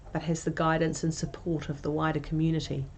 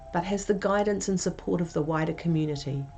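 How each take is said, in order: No difference in how they are said.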